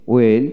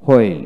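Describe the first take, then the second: First: ওয়েল starting on w, no h; ওয়েল with a plain w onset; British w pronunciation. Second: হোয়েল with an audible h first; হোয়েল starting on breathed hw; American h pronunciation. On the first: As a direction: drop the h in ওয়েল. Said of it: "British উচ্চারণে". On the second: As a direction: sound the h in হোয়েল. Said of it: "আমেরিকানে হ". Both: Shown as a demonstration.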